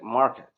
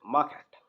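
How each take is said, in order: First: The R sound is clearly pronounced. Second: The R sound is left out entirely. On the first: "they're going to roll their R's and they're they're going to pronounce it like market" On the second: "U K people will completely ignore R sound in it. They simply say market"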